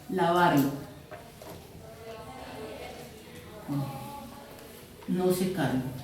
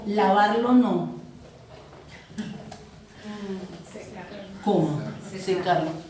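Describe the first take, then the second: First: The pause comes before the word no. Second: The pause comes after the word no. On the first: Wash it and do not dry it. "si yo digo" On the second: Do not wash it, dry it instead.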